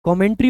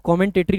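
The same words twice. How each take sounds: First: कमेंट्री with three syllables, no extra te; correct pronunciation. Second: कमेंटेटरी with the extra syllable; wrong pronunciation. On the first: Teacher giving students the right form, correct pronunciation. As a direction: say कमेंट्री cleanly. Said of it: "कमेंट्री होता है". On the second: Teacher showing students the common mistake, mispronounced. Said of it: "बहुत सारे बच्चे इसको कमेंटेटरी बोल देते हैं". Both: Shown as a demonstration.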